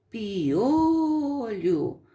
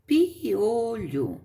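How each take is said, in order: First: "piolho" with the O held very long; stressed O. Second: "piolho" said slowly as pi, o, lho; separated syllables. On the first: Teacher showing pupils the strong syllable, stretched O in "piolho". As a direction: swell on the O of "piolho". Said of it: "a sílaba forte é o O". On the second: Teacher showing how separating syllables makes it easier, slow "piolho". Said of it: "Se você separar as sílabas". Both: Shown as a demonstration.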